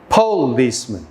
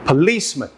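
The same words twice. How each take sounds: First: The stress is on the first syllable. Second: The stress is on the second syllable. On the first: The speaker calls it wrong. "try each option" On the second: The speaker calls it right. "the second option should feel like the correct option"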